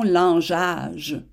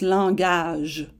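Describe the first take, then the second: First: The middle g is soft, as in gel. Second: The middle g is hard, as in go. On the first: The speaker calls it wrong. "et non langeage" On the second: The speaker calls it right. "le G avec un A fait G"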